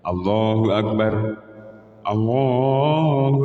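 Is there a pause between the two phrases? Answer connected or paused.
paused. There is a pause after the first akbar. "waqaf antara lafal Allahu akbar satu dan lafal Allahu akbar dua itu berhenti"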